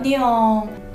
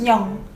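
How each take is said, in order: First: The syllable is drawn out and long. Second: The syllable is short and abrupt. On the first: The speaker calls it wrong. "kind of longer than just 냥" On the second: The speaker calls it right. "just 냥"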